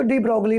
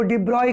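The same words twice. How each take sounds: First: डी ब्रॉगली said "dee brog-lee", with g and l sounded; spelled-out pronunciation. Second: डी ब्रॉय said "dee broy", no g or l sound; French pronunciation. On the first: Teacher offering students the spelled-out way to say डी ब्रॉगली. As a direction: read डी ब्रॉगली just as it is written. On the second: Teacher telling students the French way to say डी ब्रॉय. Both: Shown as a demonstration. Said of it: "उच्चारण जो इसका होता है pronunciation".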